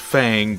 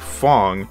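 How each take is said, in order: First: The vowel sounds like the one in 'bang'. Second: The vowel sounds like the one in 'long'. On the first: The speaker calls it wrong. "you think it says Fang" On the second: The speaker calls it right. "but it's actually Fong"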